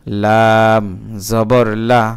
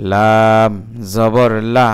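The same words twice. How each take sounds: The two takes are said the same way.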